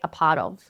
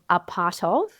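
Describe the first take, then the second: First: The T in 'part' is a soft flap. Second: The T in 'part' is a crisp, true T. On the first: "you can say a part of" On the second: "Instead of a part of"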